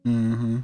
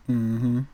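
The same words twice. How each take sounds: The two takes are said the same way.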